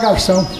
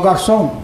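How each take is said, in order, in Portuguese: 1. A palavra é dita de forma casual, do dia a dia. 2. A palavra é dita de forma cuidadosa e formal. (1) "Nós falamos garçom" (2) "Eles falam bonito, né? ... Olha o som do garçom"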